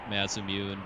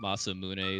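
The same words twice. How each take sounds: First: The name is said with anglicized pronunciation. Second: The name is said with Japanese-like pronunciation. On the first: "I call it Masamune" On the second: "a little more accurate Japanese pronunciation"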